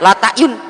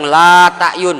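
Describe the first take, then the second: First: The vowel is said short. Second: The vowel is held long. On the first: I truly know and see it. "Jika dimaknai pendek bacaannya" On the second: I do not know or see it. "jika dibaca panjang"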